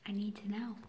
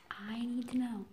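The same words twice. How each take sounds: First: Voiceless, pleading; desperate whisper. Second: Voiceless and falling; desperate whisper. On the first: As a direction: whisper the need to know. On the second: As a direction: whisper it again, resigned. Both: Real, not acted.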